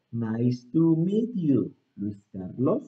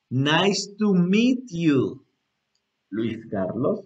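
First: More fluid. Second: Very slow, with a gap before the name; slow example reply. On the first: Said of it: "fluido otra vez". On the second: Teacher answering as the other person, very slowly. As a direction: draw out each word for learners. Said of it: "este, fluido otra vez". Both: Shown as a demonstration.

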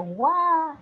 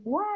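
First: Guau said louder and higher with a hard g at the start. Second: Said in the usual way. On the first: Shown as a demonstration. Teacher shows the comic spelling of a baby's cry with g. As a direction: punch out guau with a clear hard g. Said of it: "hasta con gue de gato". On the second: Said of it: "incluso a veces aparece hasta con gue de gato".

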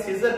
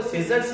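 First: सीजर said without the final s; सीजर as many people say it, no closing s; common mispronunciation. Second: सीजर्स said with the final s sounded; सीजर्स, keeping the closing s; plural ending. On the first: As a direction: drop the s, ending सीजर on r. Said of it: "सीजर बुलाते हैं बहुत सारे लोग". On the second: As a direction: end सीजर्स on a clear s. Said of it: "सीजर्स ना बुला के सीजर बुलाते हैं". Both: Shown as a demonstration.

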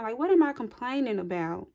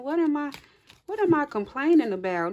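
First: Said in the usual way. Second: Higher and louder, acting out a sudden realization; imitated incredulous outburst. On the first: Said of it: "That's the energy that I'm feeling". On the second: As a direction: voice someone shocked at their own complaining. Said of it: "Like, you like".

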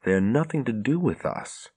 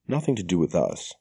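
First: Steadied resolve. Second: A touch of firmness, lightly voiced; firmly. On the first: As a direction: say it to convince herself, understated. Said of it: "Nynaeve took a deep breath". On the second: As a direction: shut the question down, understated. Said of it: "Nynaeve said firmly". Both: A narrator's reading.

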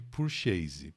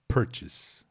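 First: "purchase" said the wrong way, as por-CHÊ-zi; mock the mistake: "purchase" rhymed with Portuguese, por-chê-zi; wrong pronunciation. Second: Whispered. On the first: Teacher mocks the students' wrong "purchase". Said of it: "Esquece essa história de purchase". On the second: Teacher whispers "Purchase" so students won't copy it. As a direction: hush it: "Purchase", barely voiced. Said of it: "Vou falar baixinho aqui". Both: Shown as a demonstration.

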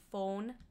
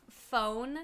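First: "phone" with a long, pure, rounded O; accented long O. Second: Said in the usual way. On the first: Shown as a demonstration. Streamer showing chat their accent, rounded-O "phone". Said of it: "it comes out like phone". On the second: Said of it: "Like, instead of phone".

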